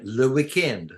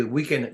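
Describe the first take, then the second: First: "le weekend" as a French borrowing; French accent. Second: Said in the usual way. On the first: Shown as a demonstration. Explaining French borrowing to a friend, mock French accent. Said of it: "pronounce it as if you have a French accent". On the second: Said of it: "you basically borrow the English word".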